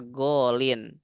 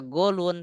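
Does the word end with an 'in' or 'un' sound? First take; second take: in; un. First: The word ends with an 'in' sound. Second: The word ends with an 'un' sound. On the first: The speaker calls it right. "tapi dibaca golin" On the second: The speaker calls it wrong. "Nggak dibaca golun"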